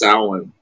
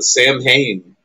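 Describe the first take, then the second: First: The name is said unlike its spelling. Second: The name is said as two spelled-out parts. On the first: This is the actual pronunciation. The speaker calls it right. "but it's actually pronounced Samhain" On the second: This is the common way people say it. The speaker calls it wrong. "Everybody calls it Sam Hain"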